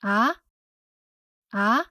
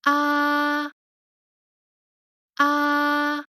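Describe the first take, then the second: First: "Ah?" sliding up from low to high like a question; second tone. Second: "Ah" held high and level, no glide; first tone. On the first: Teacher demonstrating rising second tone. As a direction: lift "Ah?" upward. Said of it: "The second tone rises from the low pitch to high pitch". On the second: Teacher showing first tone, high and flat. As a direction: sing "Ah" on one high steady pitch. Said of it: "The first tone is high and flat". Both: Shown as a demonstration.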